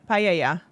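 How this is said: The word is pronounced the Spanish way. "Hablar en español"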